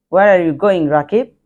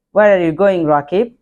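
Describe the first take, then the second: No difference in how they are said.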